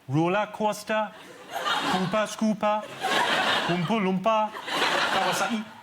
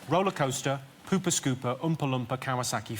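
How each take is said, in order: First: It is said in a Geordie (Newcastle) accent. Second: It is said in a plain, non-Geordie accent.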